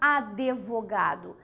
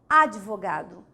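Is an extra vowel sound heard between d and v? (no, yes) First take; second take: yes; no. First: An extra e sound is heard between d and v. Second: No vowel is heard between d and v. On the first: The speaker calls it wrong. "E não advogado. ... esse E, ele acaba sendo pronunciado" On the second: The speaker calls it right. "É advogado"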